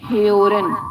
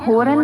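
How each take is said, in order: First: The vowel is fronted, with an e-like onset. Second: The vowel is a plain back o sound. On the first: The speaker calls it right. "इसको आप प्रोनाउंस करेंगे हेओरन" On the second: The speaker calls it wrong. "होरन नहीं"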